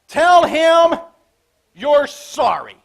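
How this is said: It is said in a grumpy, grudging child's tone.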